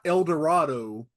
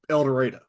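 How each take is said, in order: First: It is pronounced the standard, expected way. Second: It is pronounced the local Southern way. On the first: The speaker calls it wrong. "It's not" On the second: The speaker calls it right.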